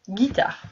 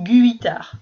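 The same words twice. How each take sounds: First: No U sound is heard after the G. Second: A U sound is heard after the G. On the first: The speaker calls it right. "On n'entendra pas le U" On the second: The speaker calls it wrong. "tu ne diras pas une guitare"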